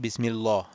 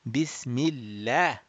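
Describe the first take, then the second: First: The L sound is heavy and full. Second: The L sound is light and thin. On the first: The speaker calls it wrong. "that that will be wrong" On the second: The speaker calls it right. "preceded by a kasrah, then it will be read um, flat"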